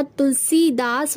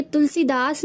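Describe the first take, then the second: First: तुलसीदास with drawn-out see, "tul-seee-daas"; correct form. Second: तुलसीदास with short i, "tulsi-daas" run together; wrong form. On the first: Teacher giving the correct word, तुलसीदास with long see. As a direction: hold the ee in तुलसीदास. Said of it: "होता है". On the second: Teacher rejecting the wrong word, तुलसीदास with short si. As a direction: clip the 'si' in तुलसीदास. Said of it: "नहीं होता". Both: Shown as a demonstration.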